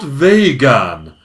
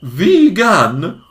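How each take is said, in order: First: "vegan" said VAY-gan, slow and stressed; wrong pronunciation. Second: "Vegan" said VEE-gan like the star; VEE-gan, long first vowel; correct pronunciation. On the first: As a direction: drag out VAY-gan with a falling tone. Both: Shown as a demonstration. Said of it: "not vegan".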